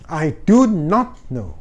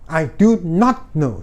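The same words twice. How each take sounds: No difference in how they are said.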